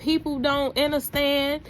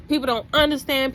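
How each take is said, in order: First: Said in the usual way. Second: "People don't understand" said louder and faster, with a hard push on "People"; emphatic repeat. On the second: Acted. Telling viewers again, louder and faster on "People". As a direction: drive the point home on "People".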